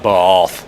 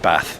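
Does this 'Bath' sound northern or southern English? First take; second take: southern; northern. First: It is said with a southern English accent. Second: It is said with a northern English accent.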